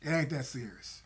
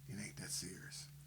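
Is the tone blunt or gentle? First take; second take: blunt; gentle. First: It sounds blunt and dismissive. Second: It sounds gentle and caring. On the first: The partner's concern is brushed aside. The speaker calls it wrong. "if I say it like that, she's not gonna receive it" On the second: The partner's concern is acknowledged before disagreeing. The speaker calls it right. "But if I say it like this"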